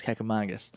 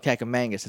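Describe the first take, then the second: First: "Cucamongas" with an open "ah" in the third syllable; low, matter-of-fact "Cucamongas" with MONG as "mahng"; correct pronunciation. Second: "Cucamongas" with a flat "a" as in "hang" in the third syllable; "Cucamongas" the wrong way, MONG turned to "mang"; wrong pronunciation. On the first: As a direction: say "Cucamongas" as "kack-a-MAHNG-gus". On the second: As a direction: say "Cucamongas" as "kack-a-MANG-gus". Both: Shown as a demonstration. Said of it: "It's wrong".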